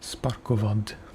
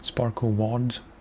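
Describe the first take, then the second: First: The name is said with a Slavic pronunciation. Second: The name is said with an English-style pronunciation.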